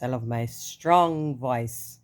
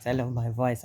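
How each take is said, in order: First: "strong" drawn out slowly and loud; emphasis on strong. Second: Said in the usual way. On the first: Real, not acted. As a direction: lean hard on "strong". Emphatic self-praise.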